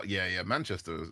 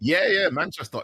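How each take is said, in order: First: Said in the usual way. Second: Excited, higher and louder Mancunian take; imitating a Manchester speaker saying Manchester; playful mock Manchester accent. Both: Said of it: "What about Manchester?".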